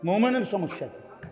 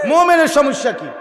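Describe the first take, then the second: First: Much softer rhetorical question; quiet repeat. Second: Loud, raised rhetorical question; forceful challenge. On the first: Preacher putting the question to the crowd, quiet aside. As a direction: let the question drop right down. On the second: Preacher asking what trouble a believer has, forceful challenge. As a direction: throw it out loudly at the crowd. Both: Real, not acted.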